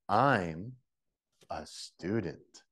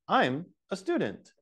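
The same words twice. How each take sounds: First: It is said slowly, with each word spoken clearly. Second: It is said with small gaps between the words. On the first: "the last one is slow, so everybody can get it" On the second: "there's a slight separation"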